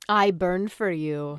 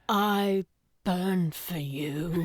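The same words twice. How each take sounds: First: It is said flatly, just quoting. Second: It is said passionately, in the moment.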